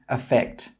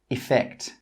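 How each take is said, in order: First: It starts with the same vowel as affect. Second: It starts with a short 'ih' vowel sound. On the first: "With my accent, these two words have exactly the same pronunciation" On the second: "with some accents, affect with an E has an it sound at the start"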